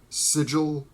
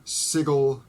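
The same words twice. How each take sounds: First: "Sigil" rhyming with "vigil". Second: "Sigil" with a hard g, like SIG-ul; "Sigil" rhyming with "wiggle"; hard g pronunciation. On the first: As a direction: say "Sigil" with a j sound in the middle. Corrects own pronunciation of card name. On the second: Tries two pronunciations of card name. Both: Real, not acted.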